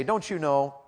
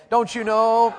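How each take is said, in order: First: Said in the usual way. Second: High, loud, emphatic challenge; louder, meaning it. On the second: Shown as a demonstration. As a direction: belt it out with conviction. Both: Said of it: "Say it louder like you mean it".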